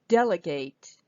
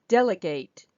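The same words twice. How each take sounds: The two takes are said the same way.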